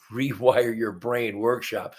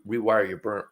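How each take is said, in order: First: Brain said properly, laughing at the slip; corrected with a laugh. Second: Burn said in place of Brain, a stumble; slip of the tongue. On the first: Host correcting workshop name, amused. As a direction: fix the name, chuckling. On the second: Host tripping over workshop name, accidental slip. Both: Real, not acted.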